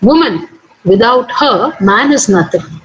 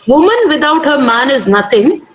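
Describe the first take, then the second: First: There are pauses after "woman" and "her". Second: It is said smoothly, without pauses.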